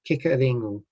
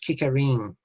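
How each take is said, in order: First: The name ends with a final u vowel. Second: The name ends without the final u vowel. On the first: The speaker calls it right. "this is actually Kekarengu" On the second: The speaker calls it wrong. "the common thing that I hear is Kekaring"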